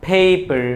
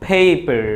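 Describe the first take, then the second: The two takes are said the same way.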